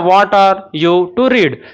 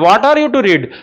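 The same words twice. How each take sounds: First: The words are said slowly and separately. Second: The words are run together smoothly. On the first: "धीरे धीरे बोलोगे ना" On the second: "join कर करके बोलोगे तो इससे बोलने में आसानी होती है"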